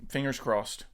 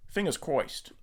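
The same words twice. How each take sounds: First: Said in the usual way. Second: Lightly voiced Penguin villain; a hint of a squawky gangster; penguin accent. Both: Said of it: "that's my penguin accent".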